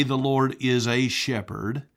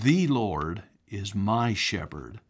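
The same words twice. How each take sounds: First: Said in the usual way. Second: "The Lord is my shepherd" said slower, weight on "my"; stress on my. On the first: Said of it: "did not say". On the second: Shown as a demonstration. Preacher correcting the quote, slow and deliberate. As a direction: lean on "my" to make it personal. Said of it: "He said".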